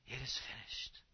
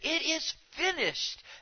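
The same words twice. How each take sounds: First: It is said as a weak, desperate gasp. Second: It is said as a resounding victorious cry.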